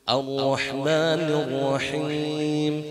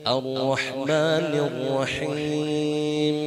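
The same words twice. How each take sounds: Both takes have the same delivery.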